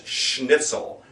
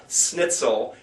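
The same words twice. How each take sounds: First: Slow "schnitzel" starting with "sh"; SH onset. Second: "snitzel" with a hissed S, no H; plain S. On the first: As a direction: say "schnitzel" with a clear SH before the N. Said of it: "that sound with a sh sound". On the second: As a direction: say "snitzel" starting like "snip". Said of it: "It's not a snitzel". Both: Shown as a demonstration.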